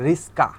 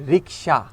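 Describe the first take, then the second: First: রিস্কা with s before k; রিস্কা, sounds swapped. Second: রিক্সা with k before s; রিক্সা, k sound first. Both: Shown as a demonstration.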